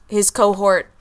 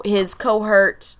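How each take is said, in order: First: Said in the usual way. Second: "cohort" slipped into CO-hurt; mispronunciation. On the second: Real, not acted. Stumbles, then corrects the word.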